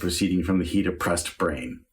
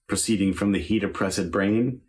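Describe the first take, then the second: First: Oppressed is said with two syllables, op-pressed. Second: Oppressed is said with three syllables, op-press-ed. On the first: The verse line is one syllable short. The speaker calls it wrong. "does not flow as well" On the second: The verse line gets its full ten syllables. The speaker calls it right. "has a much better rhythm"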